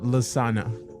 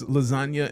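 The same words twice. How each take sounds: First: The middle has a plain 'n' sound, like lasana. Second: The middle has a 'ny' sound, like lasanya. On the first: The speaker calls it wrong. "and not lasagna" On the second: The speaker calls it right. "the G in lasagna is why it's lasagna"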